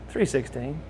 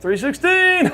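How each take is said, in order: First: Soft, faint retold voice; weak patient. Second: Very high squeal with a laugh; gleeful cry. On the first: Paralyzed Lex telling his room number, weakly. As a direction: lightly imitate a patient on a respirator, hushed. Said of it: "like, breathing on a respirator". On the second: Retold or imitated. Paralyzed Lex greeting his visitor, gleefully crying out. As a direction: crow it out in a high mock cheer. Patient gleefully shouting room number.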